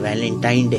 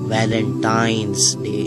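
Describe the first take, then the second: First: It is said without an s before 'Day'. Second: It is said with an s before 'Day'. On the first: This is the common everyday form. The speaker calls it wrong. "इसे जो आम कहा जाता है ये वैलेंटाइन डे है" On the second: The day belongs to a particular person. The speaker calls it right. "लेकिन हकीकत में जो इसका प्रोनाउंसिएशन है वो है"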